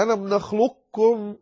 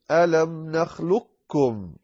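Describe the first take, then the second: First: "نخلقكم" with a trace of the qāf's heaviness; first way of "نخلقكم", qāf kept; qāf partly kept. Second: Slow "نخلقكم" as "نخلكّم", no qāf heard; "ألم نخلقكم" with the qāf gone into the kāf; second way of "نخلقكم", full merge; qāf fully merged. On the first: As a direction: say "ألم نخلقكم", the qāf still heard. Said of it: "أو تقول". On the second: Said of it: "لا وجود للقاف". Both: Shown as a demonstration.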